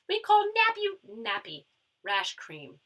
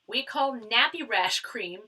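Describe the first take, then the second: First: It is said in an attempted Australian accent. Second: It is said in the speaker's normal accent.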